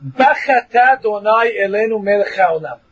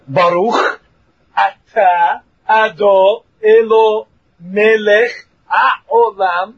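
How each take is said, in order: First: "Bachata Donai Elenu Melech Haolam" run together fast and slurred; mumbled blessing. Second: "Baruch atah" said slowly, every word separate; slow careful blessing. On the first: Teacher shows how the average guy slurs the blessing, rushed. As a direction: rush "Bachata" as one slurred word. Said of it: "you're probably saying the following words". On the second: Teacher shows the correct way to say the blessing, slow. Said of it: "So you have to say". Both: Shown as a demonstration.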